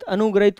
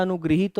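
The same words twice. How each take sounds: First: अनुग्रहित said as "anugrahit", short a, no ह sound; अनुग्रहित rattled off the wrong way, "anugra-it"; अनुग्रहित as "anugrahit", the form to avoid; wrong form shown. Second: अनुगृहीत said as "anugriheet", री then a long ही; अनुगृहीत with ग्री and a long ईत, "anu-gri-heet"; अनुगृहीत spoken correctly as "anugriheet"; correct form shown. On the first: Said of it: "अनुग्रहित कोई शब्द नहीं होता". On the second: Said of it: "अनुगृहीत होता है". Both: Shown as a demonstration.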